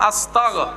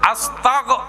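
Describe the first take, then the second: First: The word ends with a voiced g sound. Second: The same.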